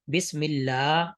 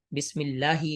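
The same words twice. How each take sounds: First: بسم اللہ with اللہ drawn out; long Allah. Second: بسم اللہ with اللہ clipped short; short Allah, wrong. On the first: Tutor showing students correct long vowel in بسم اللہ. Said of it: "اللہ کو تھوڑا سا لمبا پڑھنا ہے". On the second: Tutor showing students the wrong short اللہ. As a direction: cut the vowel of اللہ short. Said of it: "یہ غلط ہوگا". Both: Shown as a demonstration.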